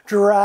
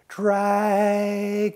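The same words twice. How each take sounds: First: The word is said somewhat louder. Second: The word is said very softly.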